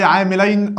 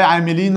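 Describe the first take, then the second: First: عاملين ending in a diphthong, "-ayn"; dual ending. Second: عاملين ending in a long "ee", "-een"; plural ending. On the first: Teacher reads the rejected option to the class, عاملين said "aamilayn". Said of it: "ما بقولش عاملين". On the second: Teacher reads the option addressing a group, عاملين said "aamileen". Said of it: "بقول عاملين". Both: Shown as a demonstration.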